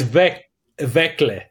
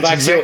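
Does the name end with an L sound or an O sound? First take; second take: L sound; O sound. First: The name ends with an L-eh sound. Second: The name ends with an ee-oh sound. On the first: The speaker calls it right. "It's Vekle" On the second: The speaker calls it wrong. "it's not Vaxio"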